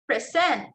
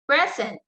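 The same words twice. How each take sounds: First: The stress is on the second syllable. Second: The stress is on the first syllable. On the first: It is used as a verb. "so the stress there is on the second syllable" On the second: It is used as a noun. "In noun, the stress there is on the first syllable"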